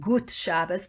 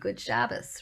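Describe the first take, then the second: First: It is said with a Yiddish pronunciation. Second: It is said with an English pronunciation. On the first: "in Yiddish it would be" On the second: "but in English we say"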